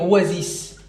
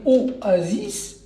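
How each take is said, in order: First: The word begins with a gliding 'wa' sound. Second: The word begins with a separate 'o' vowel. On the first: The speaker calls it right. "on va dire wa" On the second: The speaker calls it wrong. "le O, c'est une voyelle"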